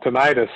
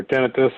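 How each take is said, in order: First: "tinnitus" stressed on the middle, ti-NIGHT-us; long-i pronunciation. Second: "tinnitus" stressed on the first syllable, TIN-i-tus; short-i pronunciation. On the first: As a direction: say "tinnitus" as tih-NYE-tus. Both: Shown as a demonstration. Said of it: "not sure how you pronounce it".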